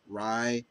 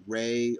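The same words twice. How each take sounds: First: "Rai" rhyming with eye; pronounced Rai. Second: "Ray" rhyming with day; pronounced Ray. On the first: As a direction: say "Rai" with a long EYE vowel. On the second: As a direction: say "Ray" with a long AY vowel. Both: Shown as a demonstration. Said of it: "depending how you pronounce her, her name".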